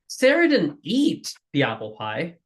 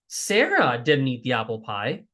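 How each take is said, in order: First: The word eat is stressed. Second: The word Sarah is stressed. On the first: She did something else with the pie. "what did she do to the apple pie?" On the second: Someone else ate the pie. "now the emphasis is Sarah didn't do it"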